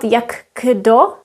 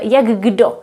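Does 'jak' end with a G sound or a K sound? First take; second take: K sound; G sound. First: The word jak ends in a K sound. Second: The word jak ends in a G sound. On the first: The speaker calls it wrong. "So it's not jak kdo" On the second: The speaker calls it right. "We pronounce K as the sound G"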